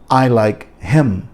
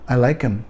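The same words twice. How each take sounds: First: The h in him is clearly pronounced. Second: The h in him disappears, words run together.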